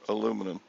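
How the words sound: The word is said with four syllables. This is how it is said in Texas. "you don't say aluminum there"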